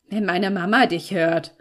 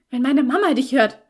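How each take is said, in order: First: Lightly mocking echo; mocking mimicry. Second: Higher, louder, urgent warning; alarmed warning. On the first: Felix aping the girl's worry about Mama, mocking. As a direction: parrot the warning back derisively. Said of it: "äffte er mich nach". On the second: Girl warning Felix that Mama might hear, alarmed. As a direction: warn urgently, close to panic. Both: A narrator's reading.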